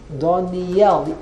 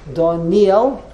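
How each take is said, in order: First: The stress is on the final syllable. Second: The stress is on the middle syllable. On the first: This follows the reading marks in the biblical book. "the emphasis is on the Yud" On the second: This is the common everyday way to say the name. "puts the emphasis on the Nun"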